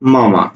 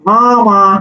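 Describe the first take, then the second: First: It is said with the nose open. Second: It is said with the nose pinched shut.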